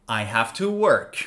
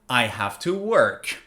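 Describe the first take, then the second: The two takes are said the same way.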